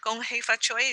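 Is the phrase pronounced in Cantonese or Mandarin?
Cantonese. The phrase is pronounced the Cantonese way. "just a Cantonese pronunciation of the same phrase"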